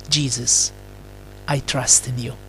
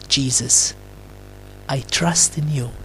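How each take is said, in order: Both takes have the same delivery.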